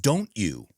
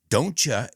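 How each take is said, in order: First: The final word is said fully and clearly. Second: The final word is reduced to a weak vowel.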